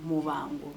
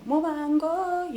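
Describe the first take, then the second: First: Said in the usual way. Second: Mubango said slowly, each syllable spelled out, pitched higher; slow, careful Mubango, mo-ban-go; careful pronunciation. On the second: Shown as a demonstration. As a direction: sound out Mubango, trying to get it right. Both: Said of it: "I hope I'm saying it correctly".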